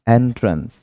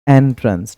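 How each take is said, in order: First: The word begins with an 'eh' vowel. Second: The same.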